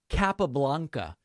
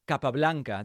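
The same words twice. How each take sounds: First: The name is said with English pronunciation. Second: The name is said with Spanish pronunciation. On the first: The speaker seems not to know Spanish. "dude, don't you speak Spanish?" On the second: The speaker seems to be showing off in English. "that's really jarring. Why? If you're speaking English, you don't need to do that"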